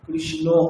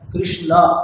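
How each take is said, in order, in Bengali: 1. শেষ স্বরটি একটি 'o' ধ্বনি। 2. শেষ স্বরটি একটি খোলা 'a' ধ্বনি। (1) "নট কৃষ্ণ, এরকম নয়" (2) "শেষটা যেন এরকমই হয়"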